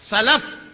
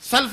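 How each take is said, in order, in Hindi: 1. L के बाद एक छोटा स्वर है। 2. L के बाद कोई स्वर नहीं है। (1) "लाम को जबर पढ़ना है" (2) "सल्फ नहीं"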